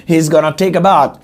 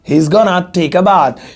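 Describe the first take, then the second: First: The words 'going to' are reduced to 'gonna'. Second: The same.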